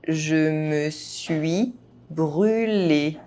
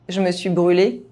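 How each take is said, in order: First: The phrase is spoken at normal speed. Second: The phrase is spoken fast, sounds reduced. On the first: This is the pace learners should use. "at a normal pace" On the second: This is how native speakers say it. "fast, as a native speaker would do"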